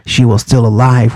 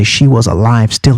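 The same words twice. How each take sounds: First: "she was still alive" said as the narrator reads it, "still" before "alive"; narrator's word order. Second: "she was alive still" with "alive" before "still"; Wells's word order. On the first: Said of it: "he reads it". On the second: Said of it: "reversed the subject and verb order to say". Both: Shown as a demonstration.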